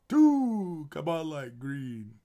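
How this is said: It is said in the Count's voice.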